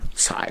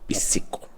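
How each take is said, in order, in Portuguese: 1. A palavra é pronunciada do jeito inglês. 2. A palavra é pronunciada do jeito português. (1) "Se for em inglês" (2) "em português"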